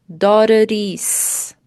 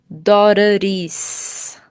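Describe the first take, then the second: The two takes are said the same way.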